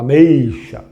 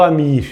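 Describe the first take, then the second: First: The middle vowel is an 'ay' glide sound. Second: The middle vowel is a plain 'ee' sound. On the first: The speaker calls it right. "eu falo ameixa" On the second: The speaker calls it wrong. "Eu não falo amixa"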